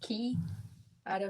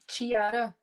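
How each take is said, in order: First: The name begins with a k sound. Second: The name begins with a ch sound. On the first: The speaker calls it right. "it's Ki, Ara" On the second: The speaker calls it wrong. "you don't pronounce the C H as the ch"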